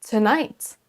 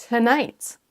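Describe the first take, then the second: The two takes are said the same way.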